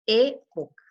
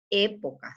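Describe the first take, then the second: First: Época with the first syllable É hit louder; stress on the E. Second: Said in the usual way. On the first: Shown as a demonstration. Teacher showing pupils the stress on the É of Época. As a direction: say Época leaning hard on the É. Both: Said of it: "Acento en la E".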